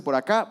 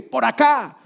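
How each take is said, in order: First: Said in the usual way. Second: Commanding call. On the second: Pretend. The Lord's answer, voiced.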